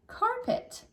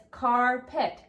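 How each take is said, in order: First: Said in the usual way. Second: CARPET slowly, as two parts, car, pet; split into syllables. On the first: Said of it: "So this word now is carpet". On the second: Shown as a demonstration. Teacher shows pupils the word's syllables, CARPET split slowly into car, pet. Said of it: "It's got how many syllables?".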